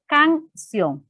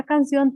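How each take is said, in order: First: Canción with the last syllable ción pushed up and out; stress on CIÓN. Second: Said in the usual way. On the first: Shown as a demonstration. Teacher showing the class the stress of Canción, ción stressed. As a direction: lean on ción in Canción, a bit higher. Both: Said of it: "en la sílaba ción es donde está el acento".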